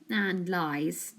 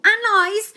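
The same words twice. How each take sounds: First: Said in the usual way. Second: High, loud interjection; butting in loudly. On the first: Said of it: "Joe agreed". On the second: A narrator's reading. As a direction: cut in sharply. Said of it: "A J butted in".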